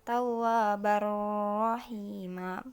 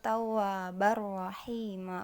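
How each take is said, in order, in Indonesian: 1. Bunyi sebelum 'rahima' ditahan dan dipanjangkan. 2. Langsung menyambung ke 'rahima' tanpa ditahan. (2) "jadi langsung"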